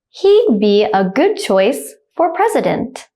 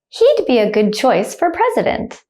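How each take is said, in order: First: The sentence is spoken slowly and carefully. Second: The sentence is spoken fast and naturally. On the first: "The first time I'll say it slowly" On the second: "I'll say it like a native speaker, speed"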